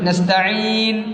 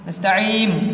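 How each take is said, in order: First: The word ends with an n sound. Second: The word ends with an m sound. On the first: The speaker calls it right. "നസ്തഈൻ എന്നാണ്" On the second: The speaker calls it wrong. "നസ്തഈം എന്നായി പോലുണ്ട് പലരും ഓതുന്നത്"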